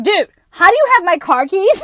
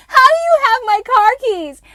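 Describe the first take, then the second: First: Higher, louder shocked demand; shocked yell. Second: Much higher, louder, crying-out shriek; shrieking yell. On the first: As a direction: yell it in disbelief at the stranger. Shocked at stranger holding keys. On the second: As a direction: scream the question in utter shock. Repeating the shocked question. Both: Retold or imitated.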